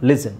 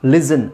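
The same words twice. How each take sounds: First: "listen" as "lis-sun", no T; silent T. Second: Second "listen" as "lis-ten", hard T; sounded T. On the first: Teacher giving the corrected listen, silent T. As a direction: skip the T inside "listen". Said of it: "listen ಅಂತ ಹೇಳಲ್ಲ". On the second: Teacher showing how not to say listen, sounded T. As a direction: hit the T inside "listen". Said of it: "ಅಂತ ಹೇಳಲ್ಲ". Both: Shown as a demonstration.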